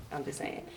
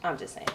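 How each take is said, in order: First: Much softer, almost whispered; whispered aside; trailing mutter. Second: Said in the usual way. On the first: Acted. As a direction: drop it under your breath. Muttered repeat.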